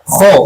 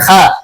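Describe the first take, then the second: First: The syllable is thick with a dark vowel. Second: The syllable is thin with a bright vowel. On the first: The speaker calls it right. "dibaca tebal" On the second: The speaker calls it wrong. "bukan kha"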